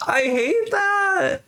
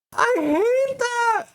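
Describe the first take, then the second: First: High, slow whiny complaint; mock whine. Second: High, slow fake sob; mock crying. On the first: Streamer whining to a viewer about her Sims' breakup. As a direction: whine it like a sulky kid. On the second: Streamer fake-sobbing over a viewer's Sims breakup. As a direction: pretend to cry it out, hammed-up.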